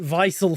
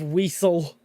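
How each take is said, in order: First: The word begins with a V sound. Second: The word begins with a W sound. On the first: The speaker calls it wrong. "I pronounce it Weissel for some reason" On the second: The speaker calls it right. "Instead of Weasel"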